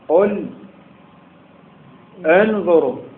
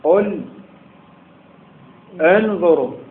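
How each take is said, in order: First: A pause separates the words before the glottal stop. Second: A pause separates the words before the glottal stop.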